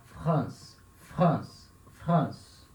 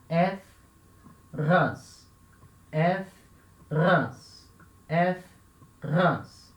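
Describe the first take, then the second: First: 'France' as one syllable, F running into the throat R; 'France' unbroken with a throat R; joined up. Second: 'F', a pause, then 'rance' with a throat R; 'France' broken in two, gap after the F; separated for practice. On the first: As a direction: blend F and guttural R in 'France'. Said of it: "vai tentando juntar". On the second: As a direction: split 'France' into 'èf' and a guttural 'rance'. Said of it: "você separa". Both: Shown as a demonstration.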